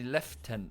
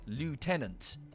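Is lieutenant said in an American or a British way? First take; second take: British; American. First: It is said the British way, closer to French. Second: It is said the American way, spelled-out sounding. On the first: The speaker calls it right. "When it's actually" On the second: The speaker calls it wrong. "the Americans have pronounced it phonetically"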